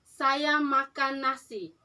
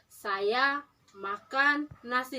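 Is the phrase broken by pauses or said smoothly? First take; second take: smooth; broken. First: The phrase is said smoothly without pauses. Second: The phrase is broken up by pauses. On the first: The speaker calls it right. "itu harus satu kalimat" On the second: The speaker calls it wrong. "Tidak boleh ada"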